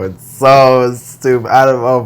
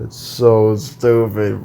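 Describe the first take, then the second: First: Louder, drawn-out exasperation. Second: Said in the usual way. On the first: Real, not acted. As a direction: lean on "so" and let it out loudly. Venting about online school.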